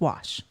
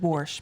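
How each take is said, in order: First: The word is said the standard way. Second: The word is said the rural country way. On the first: The speaker calls it right. "It's wash" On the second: The speaker calls it wrong. "hurts me even to say the word wash because I no, we just don't say that"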